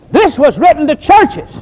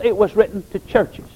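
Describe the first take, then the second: First: "this was written to churches" called out loud and high, leaning hard on "this"; emphatic preaching. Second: Said in the usual way. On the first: Real, not acted. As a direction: drive it home with "this" punched. Preacher hammers the key point.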